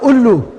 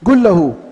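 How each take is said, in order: First: The first word begins with a glottal stop. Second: The first word begins with a hard g sound. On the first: This is the Egyptian way of saying it. "انہوں نے قاف کو حمزہ بنا دیا ہے تو وہ کہے گا الو" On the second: This is the Saudi way of saying it. "قل لہو کو سعودیہ والا کہے گا گل لہو"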